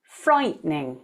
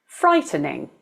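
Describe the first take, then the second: First: Frightening said as FRITE-ning, two syllables; frightening with the t running straight into n; two-syllable pronunciation. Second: Frightening said as FRY-tuh-ning, three syllables; frightening with a short uh between t and n; three-syllable pronunciation. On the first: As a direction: drop the middle vowel in frightening. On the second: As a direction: sound the middle vowel in frightening. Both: Shown as a demonstration. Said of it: "And the second".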